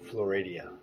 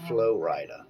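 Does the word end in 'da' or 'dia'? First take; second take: dia; da. First: The word ends with an added 'dia' sound. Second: The word ends with a plain 'da' sound. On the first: The speaker calls it right. "As it's been properly pronounced" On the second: The speaker calls it wrong. "It's been mispronounced for a very long time as Flo-rida"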